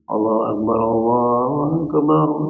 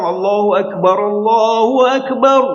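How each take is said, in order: First: It is said weakly, like a hungry person. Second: It is said loudly and with spirit.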